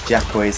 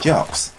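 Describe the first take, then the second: First: The name begins with a 'jack' sound. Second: The name begins with a 'jock' sound. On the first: The speaker calls it wrong. "the way I used to pronounce this" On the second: The speaker calls it right. "it's actually pronounced Jocks"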